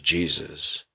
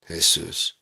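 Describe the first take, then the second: First: The name is said with English sounds. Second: The name is said with Spanish sounds. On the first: "combine it with ours" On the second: "Mexican pronunciation"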